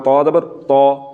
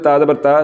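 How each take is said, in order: First: The letter is said heavy and full. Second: The letter is said thin and light. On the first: The speaker calls it right. "तौ को भी पुर करके पढ़ना है" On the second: The speaker calls it wrong. "ये हर बरीक पढ़ा जा रहा है... सरासर गलत"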